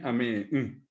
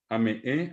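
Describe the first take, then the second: First: Ameé then hummed nasal mm; negated with nasal mm. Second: Said in the usual way. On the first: Shown as a demonstration. Teacher shows negation: ameé then nasal mm. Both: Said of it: "le pongo la mm nasal".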